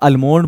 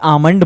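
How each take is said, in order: First: The L sound is pronounced in the word. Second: The L sound is silent in the word. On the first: The speaker calls it wrong. "हालांकि तुम लोग अल्मोंड बोलते हो" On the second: The speaker calls it right. "ये आमंड बोला जाता है"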